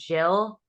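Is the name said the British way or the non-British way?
British. The name is said the British way.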